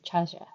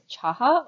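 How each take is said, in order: First: The middle consonant is a J sound. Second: The middle consonant is a breathy H sound. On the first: "or not" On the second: "pronounce the J as an H"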